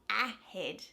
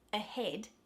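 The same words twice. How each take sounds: First: The first vowel is an open short 'a'. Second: The first vowel is a relaxed 'uh' sound. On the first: The speaker calls it wrong. "it's not ahead" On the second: The speaker calls it right. "that A in the beginning is not stressed"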